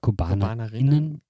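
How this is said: A short pause comes before the ending -innen. People of all genders are meant. The speaker calls it right. "Immer so einen kurzen Pause. Kurze Pause machen"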